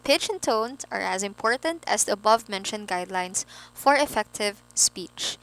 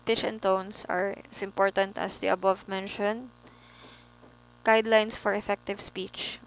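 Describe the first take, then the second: First: The voice is lively with varied pitch. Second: The voice is flat with little pitch variation. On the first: The speaker calls it right. "put a little color when it comes to speaking, no? Put tones, not too enthusiastic, no? Just the right amount of enthusiasm" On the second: The speaker calls it wrong. "very flat"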